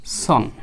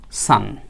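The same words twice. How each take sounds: First: "সন" with a rounded o vowel, rhyming with on; mistaken pronunciation. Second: "সান" with an open a vowel, like sun; correct pronunciation. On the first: Teacher quoting a common mistake, mistaken pronunciation. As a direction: say "সন" with an o, as many wrongly do. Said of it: "এটা কিন্তু ভুল উচ্চারণ". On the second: Teacher correcting learners on son, correct pronunciation. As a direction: say "সান" with ah, never a rounded o. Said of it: "আমরা এটাকে বলবো". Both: Shown as a demonstration.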